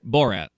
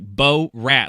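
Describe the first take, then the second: First: The name flows together as one word. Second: The name is split into two separate parts. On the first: The speaker calls it right. "Like it's one" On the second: The speaker calls it wrong. "Like it's two different words"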